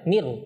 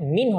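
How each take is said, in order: First: The n is merged into an r sound. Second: The word ends with a clear n sound. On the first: The speaker calls it right. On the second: The speaker calls it wrong. "মিন হবে না"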